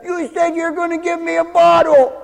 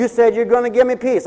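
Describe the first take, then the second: First: Put-on demanding kid. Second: Said in the usual way. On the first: Child demanding the promised bottle from a parent, mock high kid voice. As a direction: mimic a small child insisting on what was promised, pitched up. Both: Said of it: "Doesn't the kid say that?".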